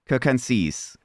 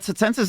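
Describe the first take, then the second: First: The first C sounds like K. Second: The first C sounds like TS. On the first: This is the reconstructed classical Latin way. "The actual Latin Latin reconstruction classic is" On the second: This is the later German way of reading Latin. "the Circenses is actually the modern German pronunciation of Latin"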